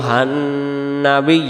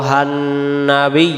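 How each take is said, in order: Both takes have the same delivery.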